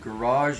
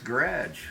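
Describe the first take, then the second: First: It is said with the local, non-Canadian pronunciation. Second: It is said with a Canadian pronunciation. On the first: "Down here, it's sort of garage or something like that" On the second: "up in Edmonton, Alberta, Canada, where I'm from, it's garage"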